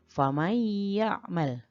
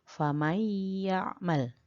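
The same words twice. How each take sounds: The two takes are said the same way.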